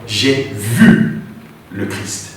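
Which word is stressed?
vu. The stress falls on the word vu. The act of seeing is what matters. "mettre l'accent sur le fait de voir"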